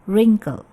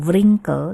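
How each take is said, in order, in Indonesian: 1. W di awal tidak dibaca. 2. W di awal dibaca. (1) "Ini W-nya silent, ya, kita tidak baca" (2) "bukan wrinkle"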